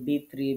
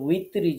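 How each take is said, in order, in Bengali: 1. শব্দটি B ধ্বনি দিয়ে শুরু হয়। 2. শব্দটি W ধ্বনি দিয়ে শুরু হয়। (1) "সলাতুল বিত্রি ভিত্রি বিভিন্ন কিছু বলে ফেলি" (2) "সঠিক উচ্চারণ হচ্ছে উই"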